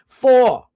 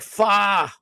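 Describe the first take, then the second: First: The word ends with a clear r sound. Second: The word drops the r, sounding like fa. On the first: "I say like four" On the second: "They're like fa"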